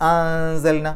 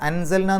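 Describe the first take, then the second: First: The n sound is hidden and only nasalized. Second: The n sound is pronounced fully and clearly. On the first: The speaker calls it right. "മറച്ച് വെച്ചുകൊണ്ട് മണിക്കണം" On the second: The speaker calls it wrong. "അൻസൽന എന്ന് പറയില്ല"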